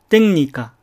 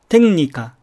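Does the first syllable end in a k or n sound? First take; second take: n; n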